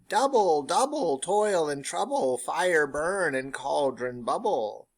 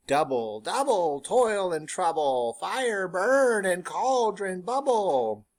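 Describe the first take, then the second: First: Slow, loud chant, starting high; witches' chant. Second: Slow, rising, louder chant; witches' chant. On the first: Teacher chants the witches' chorus a second time, slow and loud. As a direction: chant it like a coven again. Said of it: "they all chant". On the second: Teacher chants the witches' chorus for the class, slow and loud. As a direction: chant it like a coven over the cauldron. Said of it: "they all chant together". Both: Acted.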